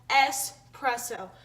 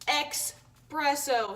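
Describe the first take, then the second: First: The word starts with an es sound. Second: The word starts with an eks sound. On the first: The speaker calls it right. "All of you people saying I pronounce it wrong" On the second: The speaker calls it wrong. "I realize I say espresso sometimes"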